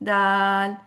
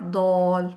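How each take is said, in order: First: The vowel is an open 'aa' sound. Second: The vowel is a rounded 'aw' sound. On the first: The speaker calls it right. "नहीं, दाल" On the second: The speaker calls it wrong. "Not दौल"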